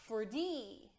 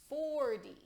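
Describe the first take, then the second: First: The stress is on the second syllable. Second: The stress is on the first syllable. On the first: The speaker calls it wrong. "it's not forty" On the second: The speaker calls it right. "it's forty"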